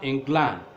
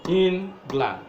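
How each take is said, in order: First: The stress is on the second syllable. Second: The stress is on the first syllable. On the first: The speaker calls it wrong. "not England" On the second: The speaker calls it right. "it is stressed on the first syllable"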